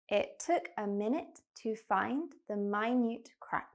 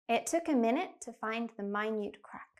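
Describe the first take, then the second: First: The sentence is spoken slowly. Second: The sentence is spoken very quickly. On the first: "I'll slow down" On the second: "I'm going to say the sentence really quickly"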